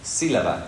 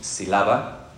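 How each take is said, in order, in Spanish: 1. El acento cae en la primera sílaba. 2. El acento cae en una sílaba posterior. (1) "sino sílaba, y se nota con la tilde" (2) "no decimos sílaba"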